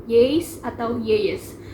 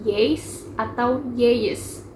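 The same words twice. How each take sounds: No difference in how they are said.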